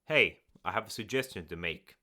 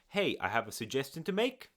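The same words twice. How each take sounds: First: The voice falls at the end like a statement. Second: The voice rises at the end like a question. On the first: It sounds confident and authoritative. The speaker calls it right. "end the sentence on a downward note" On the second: It sounds uncertain, like asking permission. The speaker calls it wrong. "which sounds like a question"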